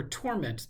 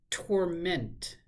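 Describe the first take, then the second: First: "torment" said TOR-ment; first-syllable stress. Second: "Torment" said tor-MENT; second-syllable stress. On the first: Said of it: "the noun". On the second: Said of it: "put the emphasis on the second syllable". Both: Shown as a demonstration.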